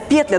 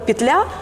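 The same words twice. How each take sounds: First: The stress falls where local speakers put it. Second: The stress falls where Russian would put it. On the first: The speaker calls it right. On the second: The speaker calls it wrong.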